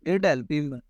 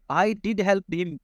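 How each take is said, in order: First: Said in the usual way. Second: I did help him, slow with did and help hit hard; emphatic did. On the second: Shown as a demonstration. Teacher showing emphasis to students, slow stressed I did help him. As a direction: spell out each word, stressing did. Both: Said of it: "तो मैं क्या बोलूँगा".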